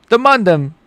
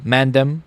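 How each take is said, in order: First: Put-on high, playful UK roadman accent. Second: Said in the usual way. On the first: Streamer trying out British slang for viewers, UK accent. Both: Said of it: "I just like doing the U K accent".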